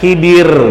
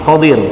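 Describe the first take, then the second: First: The first vowel is an 'i', not 'a'. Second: The first vowel is an open 'a'. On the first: This is the commonly known form of the name. The speaker calls it wrong. "kita kenalnya Khidir" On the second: This is the form written in the hadith text. The speaker calls it right. "khoknya fathah, ya. Yang lebih tepat lafalnya ini Khodir"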